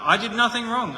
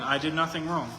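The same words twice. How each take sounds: First: "nothing" hit high and louder; insistent protest. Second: Said in the usual way. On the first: Retold or imitated. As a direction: protest innocence, punching "nothing". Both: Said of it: "Job just keeps pointing".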